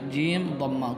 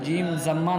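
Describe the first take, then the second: First: The second word begins with a d sound. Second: The second word begins with a z sound. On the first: The speaker calls it right. "कभी भी आप पढ़ेंगे जीम दम्मा" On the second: The speaker calls it wrong. "जीम ज़म्मा नहीं बोलेंगे"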